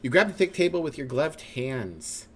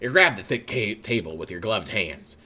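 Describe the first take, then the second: First: It is said in a non-narrator voice. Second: It is said in the narrator voice.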